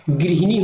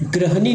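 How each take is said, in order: First: गृहिणी opening on "gri"; correct form गृहिणी. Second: ग्रहणी with a plain "gra" opening; wrong form ग्रहणी. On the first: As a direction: say गृहिणी with an "i" after gr. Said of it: "गृहिणी होता". (गृहिणी में "गृ" को "ग्रि" जैसा बोलना) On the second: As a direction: say ग्रहणी with "a" after gr, no "i". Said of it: "ग्रहणी नहीं होता". (ग्रहणी में "ग्र" बोलना, "गृ" नहीं) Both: Shown as a demonstration.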